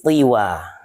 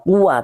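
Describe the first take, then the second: First: The first vowel is an i sound. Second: The first vowel is an u sound. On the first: This is another reported reading of the word. "tapi tiwa" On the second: This is the common reading of the word. "bukan dibaca tua"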